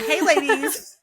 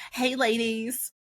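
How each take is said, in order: First: High, loud greeting through laughter; laughing retake. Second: Drawn-out Southern greeting; Southern accent. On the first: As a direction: say it again louder and higher, laughing. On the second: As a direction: read it slowly in a Southern accent, a bit higher. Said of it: "I just gave you a Southern accent". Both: Acted.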